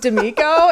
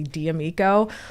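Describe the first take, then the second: First: The D blends straight into the name. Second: The D is said as its letter name. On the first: This is how the family actually says it. "So we're just D'Amico" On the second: This is the technically correct form. "after an apostrophe, you say the letter as a letter"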